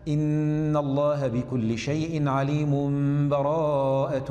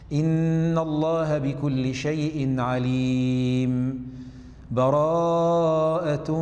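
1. تُوصل الكلمات بلا سكت. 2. تأتي السكتة الأطول مع نفس. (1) "نبدأ بالوصل هكذا" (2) "والوقف سنقف زمن أطول قليلا من السكت مع النفس"

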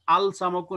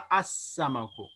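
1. 'l' को 's' से पहले बोला जाता है। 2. 'l' दोहरे 's' में मिल जाता है। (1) "अल समकु नहीं पढ़ा" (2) "हमने पढ़ा अस्समकु"

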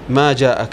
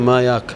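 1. يبدأ الفعل بصوت j ويحتفظ بالهمزة. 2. يبدأ الفعل بصوت y ويحذف الهمزة. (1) "نقول في اللغة العربية ما جاءك" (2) "يقولون ما ياك، هنا الجيم انقلبت ياء"

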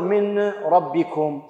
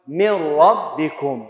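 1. تبقى النون منفصلة قبل الراء. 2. تندمج النون في الراء اندماجاً تاماً. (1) "ما أقدر أقول من ربكم" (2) "هكذا نسمع فقط صوت الراء"

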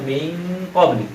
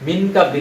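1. n ধ্বনিটি নাসিক হিসেবে লুকানো থাকে। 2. n ধ্বনিটি পুরোপুরি ও স্পষ্টভাবে উচ্চারিত হয়। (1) "ইকফা হবে" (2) "মিন ক্বাবলি না"

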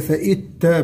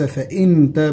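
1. النون تُدغم كليًا في التاء. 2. النون تُنطق واضحة قبل التاء. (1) "وليس فإت تا بالإدغام" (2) "وليس فإن تا بالإظهار"

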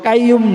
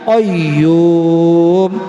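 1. প্রথম ব্যঞ্জনধ্বনিটি একটি সাধারণ সামনের k ধ্বনি। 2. প্রথম ব্যঞ্জনধ্বনিটি জিভের গোড়া থেকে আসে।

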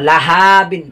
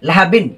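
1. শব্দটি ধীরে এবং টেনে বলা হয়। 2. শব্দটি দ্রুত এবং সাবলীলভাবে বলা হয়। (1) "যেন লাহা বিন না হয়" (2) "তাড়াতাড়ি দ্রুত প্রতিটি শব্দই দ্রুত উচ্চারণ করতে হবে"

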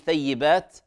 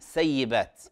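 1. تبدأ الكلمة بصوت ث. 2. تبدأ الكلمة بصوت س.

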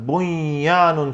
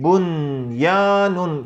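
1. n, ardından gelen y sesine karışıyor. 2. n, y'den önce açıkça telaffuz ediliyor. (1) "Bunyanun şeklinde değil de" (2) "izhar yapar gibi bunyanun şeklinde"

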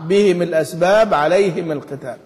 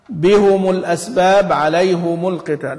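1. الهاء والميم كلاهما تأخذ كسرة. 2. الهاء والميم كلاهما تأخذ ضمة. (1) "يكسر الهاء والميم معها" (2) "وحمزة والكسائي يضمان"

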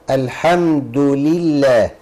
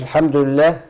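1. ضمة واضحة بعد d، وكسرة واضحة بعد l. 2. الحركات بعد d وl تمتزج ببعضها. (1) "ادي دال مضمومه ولام مكسوره" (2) "ما تقولش الحمد لله"

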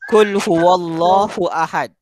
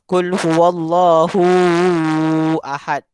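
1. Vokal dibaca dengan panjang normal. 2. Vokal dipanjangkan terlalu lama. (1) "Yang betul" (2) "Salah. ... Panjang. Betul"

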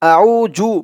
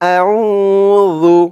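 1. দ্বিতীয় অক্ষরটি z ধ্বনি দিয়ে শুরু হয়। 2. দ্বিতীয় অক্ষরটি নরম th ধ্বনি দিয়ে শুরু হয়। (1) "আউ জু বলা যাবে না। আউ জু বললে কিন্তু রালের উচ্চারণটা সঠিক হয় না" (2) "বলতে হবে আউ রু। ... জিব্বার মাথা ওপরের দাঁতের মাথার সাথে লাগবে"

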